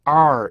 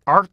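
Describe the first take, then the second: First: "are" held long with no stop; wrong demo of a drawn-out "are"; open-ended ARE. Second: "are" cut short at the end; checked "are" with a glottal stop. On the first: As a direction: let "are" ring on, uncut. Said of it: "이렇게 읽는 게 아니고". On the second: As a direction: close off "are" abruptly. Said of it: "이렇게 읽어야죠". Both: Shown as a demonstration.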